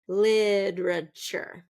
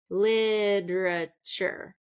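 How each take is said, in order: The two takes are said the same way.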